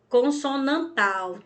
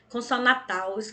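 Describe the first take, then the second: First: An n sound comes before the final syllable. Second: No n sound comes before the final syllable. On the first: The speaker calls it right. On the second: The speaker calls it wrong. "Tem gente que fala"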